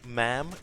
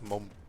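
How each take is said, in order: First: It is said in a plain American accent. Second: It is said in a British accent.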